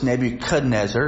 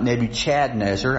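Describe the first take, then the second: First: The middle syllable does not sound like Chad. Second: The middle syllable sounds like the name Chad. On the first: The speaker calls it right. "I always remind people it's Nebuchadnezzar" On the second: The speaker calls it wrong. "it's not Nebuchadnezzar... not Chadnezzar"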